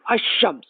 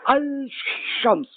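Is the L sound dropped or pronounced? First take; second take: dropped; pronounced. First: The L sound is dropped before shams. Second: The L sound is pronounced before shams. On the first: The speaker calls it right. "the good style is Ashams" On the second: The speaker calls it wrong. "This is very bad"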